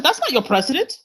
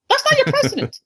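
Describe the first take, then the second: First: Said in the usual way. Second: Much higher, insistent second "That's not your president"; emphatic repeat. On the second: Retold or imitated. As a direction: say it again, pitched way up to drive it home. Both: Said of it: "I'm like".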